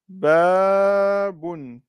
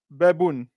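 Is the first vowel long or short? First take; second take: long; short. First: The first vowel is held long. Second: The first vowel is cut short. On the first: The speaker calls it right. "Il faut bien mettre la prolongation" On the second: The speaker calls it wrong. "baboun ça veut rien dire"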